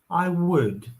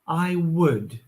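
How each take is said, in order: First: The word would is full and strongly emphasized. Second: The word would is full and strongly emphasized.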